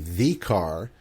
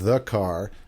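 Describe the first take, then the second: First: The article is said in a careful, read-aloud way. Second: The article is said in a natural, casual way. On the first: The speaker calls it wrong. "they say the car and the banana" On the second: The speaker calls it right. "instead of the car and the banana"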